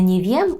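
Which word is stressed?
wiem. The stress falls on the word wiem. The speaker calls it wrong. "Не не вєм"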